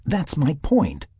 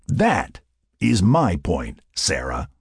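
First: Higher, slow "That's my point"; drawn-out, high-pitched emphasis; insistent. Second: Deliberate emphasis, dropping on "Sarah"; emphatic. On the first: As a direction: insist that this is exactly it. Sarah insists on her point. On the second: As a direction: land "That" firmly, then spell it out. Mac drives his point home. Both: Acted.

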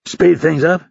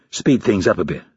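First: "Speed things up" high, rising at the end; incredulous echo question. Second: Said in the usual way. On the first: A narrator's reading. Instructor queries recruit's suggestion, "Speed things up" pitched high and rising. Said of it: "Hurley asked".

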